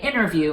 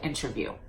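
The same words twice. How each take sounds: First: The T after the N is dropped. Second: The T after the N is clearly pronounced. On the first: "they will say interview" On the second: "instead of interview"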